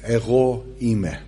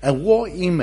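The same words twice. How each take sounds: First: Ego eime said slowly the Greek way, eh-oh ee-meh; Greek pronunciation. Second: Ego eime said quickly, a little higher, eh-oh eem; quick Greek ego eime; Greek phrase. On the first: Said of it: "in the original Greek, it's". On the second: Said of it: "if you were to translate it literally". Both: Shown as a demonstration.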